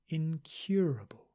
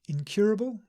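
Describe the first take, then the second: First: The word is said slowly. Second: The word is said at normal speed. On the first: "I'll read them slowly" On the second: "at normal speed again"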